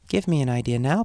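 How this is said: It is said in a gentle tone.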